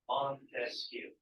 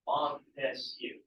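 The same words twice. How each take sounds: First: "Montesquieu" slow, each syllable apart, falling; punching each syllable. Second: "Montesquieu" split slowly into three syllables, Mon-tes-quieu; punching each syllable. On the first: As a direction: spell out "Montesquieu" by its three syllables. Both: Shown as a demonstration. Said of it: "break it down into the syllables".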